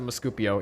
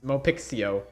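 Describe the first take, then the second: First: The middle of the name sounds like 'scoop'. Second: The middle of the name sounds like 'pix'. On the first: The speaker calls it wrong. "I always pronounce it Muscupio, even though it's probably not how you pronounce it" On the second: The speaker calls it right. "I think more, more like pronounced like that"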